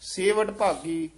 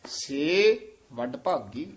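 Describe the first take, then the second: First: The syllable 'se' is joined to the following word. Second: The syllable 'se' is slightly separated from the next word. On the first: The speaker calls it wrong. "ਸੇਵ ਐ ਇਕੱਠਾ ਹੋ ਜਾਂਦਾ" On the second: The speaker calls it right. "ਸੇ ਨੂੰ ਜਦੋਂ ਥੋੜਾ ਜਿਹਾ ਨਖੇਰ ਦਾਂਗੇ ਤਾਂ ਸਪਸ਼ਟ ਹੋ ਜਾਏਗਾ"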